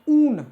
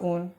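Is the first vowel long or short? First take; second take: long; short. First: The first vowel is held long. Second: The first vowel is cut short. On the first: The speaker calls it right. "बड़ा वाला से तो" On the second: The speaker calls it wrong. "छोटा सा बोलिएगा तो"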